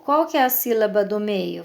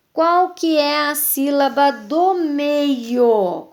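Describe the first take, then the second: First: Said in the usual way. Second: "do meio" stretched out, slow and higher; emphatic quiz question. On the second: Shown as a demonstration. Teacher quizzing pupils on the middle syllable, slow emphatic question. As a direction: ask slowly and high, drawing out "do meio". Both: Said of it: "Se eu falar pra vocês assim".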